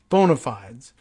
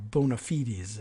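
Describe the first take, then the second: First: It is said with an Americanized pronunciation. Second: It is said with a non-Americanized pronunciation. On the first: "I like the Americanized version" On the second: "if you want to go with that pronunciation"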